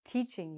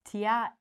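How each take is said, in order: First: "teaching" with one long ee, "TEE-ching"; correct single vowel. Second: "teaching" broken into "tee-atch-ing"; wrong two-vowel reading. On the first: Teacher showing the right word, "teaching" as TEE-ching. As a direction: say "teaching" with the A silent. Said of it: "I'm only". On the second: Teacher mocking the mistake, "teaching" as tee-atch-ing. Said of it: "but I'm not". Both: Shown as a demonstration.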